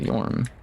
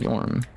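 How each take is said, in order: First: The vowel sounds like 'or' in for. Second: The vowel sounds like 'or' in for.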